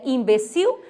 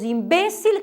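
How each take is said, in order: First: Imbecil said im-be-CIL, final l as w; Portuguese stress. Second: Imbécil said im-BÉ-cil; Spanish stress. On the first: Teacher giving the Portuguese form, imbecil stressed on CIL. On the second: Teacher giving the next Spanish example, imbécil stressed on BÉ. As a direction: lean on BÉ in imbécil. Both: Shown as a demonstration. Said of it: "em português é imbecil".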